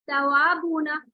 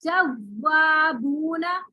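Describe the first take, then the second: First: तवाबूना with lips rounded, the व light and unpressed; correct reading. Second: जवाबूना very slowly with a pressed, buzzing व; wrong pressed reading. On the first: Teacher giving the right version of तवाबूना to a student. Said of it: "देखिए, मैं एक word पढ़ी हूँ". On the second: Teacher showing a student the wrong pressed जवाबूना to avoid. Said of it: "महसूस हो रही है झंझनाहट वाव पे". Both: Shown as a demonstration.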